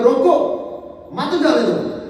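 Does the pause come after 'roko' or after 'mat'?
after roko. The pause comes after 'roko'.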